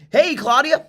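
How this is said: The greeting sounds upbeat, polished and salesy. The caller is following a standard sales script. The speaker calls it wrong. "Let me show you the classic sales guy"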